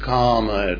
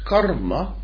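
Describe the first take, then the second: First: The word is said without an r sound. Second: The word is said with an r sound. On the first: The speaker calls it wrong. "a good many mispronounce karma, K-A-R-M-A, by calling it kama" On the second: The speaker calls it right. "It's karma"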